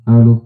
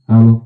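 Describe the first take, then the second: The two takes are said the same way.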